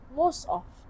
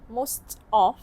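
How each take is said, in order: First: Most of is reduced, with a sound dropped. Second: Most of is said in full, every sound clear. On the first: "the speaker make it sound nat- more natural, so it became most of" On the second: "instead of most of"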